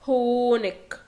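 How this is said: The word ends with a hard 'k' sound. This is the form used in Austria. "بقول هونك لو انا في österreich"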